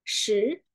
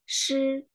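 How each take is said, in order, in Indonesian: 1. Suku kata ini memakai nada kedua Mandarin. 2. Suku kata ini memakai nada pertama Mandarin. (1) "Kalau nada kedua, what" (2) "Kalau nada pertama berarti shi"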